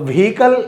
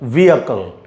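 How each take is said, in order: First: It starts with a breathy 'vhee', then 'kal'. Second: It starts with a plain 'vee', then 'akal'. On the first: The speaker calls it wrong. "व्हीकल ऐसे नहीं बोलना है" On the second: The speaker calls it right. "वी बोलकर वी अकल"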